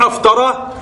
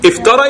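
First: The word begins with an 'a' vowel. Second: The word begins with an 'i' vowel. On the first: It asks a question. "لكن أفترى استفهام" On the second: It states a fact. "افترى يبقى يخبر"

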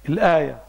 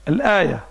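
Both takes have the same delivery.

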